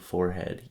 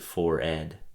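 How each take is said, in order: First: The H sound in the middle is pronounced. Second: The H sound in the middle is silent. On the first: The speaker calls it wrong. "you have been mispronouncing forehead your entire life" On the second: The speaker calls it right. "It said the H is supposed to be silent"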